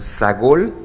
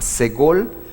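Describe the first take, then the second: First: The first vowel sounds like 'a'. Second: The first vowel sounds like 'e'. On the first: "Algunas personas lo pronuncian sagol" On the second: "Se llama segol"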